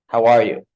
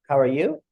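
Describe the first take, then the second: First: It is said confidently and relaxed. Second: It is said hesitantly and unsure.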